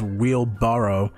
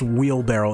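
First: The word ends sounding like barrow. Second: The word ends sounding like barrel. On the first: The speaker calls it right. "It's pronounced wheelbarrow, right? I think that's the actual way of pronouncing that" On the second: The speaker calls it wrong. "It's not pronounced wheelbarrow. ... It's not barrel"

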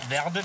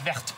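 First: The word is pronounced the Italian way. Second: The word is pronounced the French way. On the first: The speaker calls it wrong. "Verde wäre italienisch" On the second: The speaker calls it right. "aber es ist Verde"

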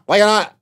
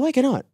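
First: The question sounds sharp and confrontational. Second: The question sounds light and friendly. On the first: It is an angry challenge. The speaker calls it wrong. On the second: It is a genuine, curious question. The speaker calls it right. "it's the tone that I put it as, hey, why cannot? Like that"

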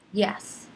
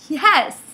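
First: It sounds annoyed. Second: It sounds wildly happy.

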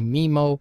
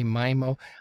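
First: The word rhymes with Nemo. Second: The word does not rhyme with Nemo. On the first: "I like to say MIMO. It sounds cooler, like Finding MIMO" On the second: "most people say MIMO"

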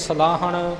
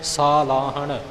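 First: The first vowel is short. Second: The first vowel is long. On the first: The speaker calls it wrong. "ਆਮ ਤੌਰ 'ਤੇ ਅਸੀਂ ਸਲਾਹਣ ਸਿੱਧਾ ਹੀ ਬੋਲ ਜਾਂਦੇ ਹਾਂ" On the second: The speaker calls it right. "ਕੰਨਾ ਲਿਖਿਆ ਹੋਇਆ"

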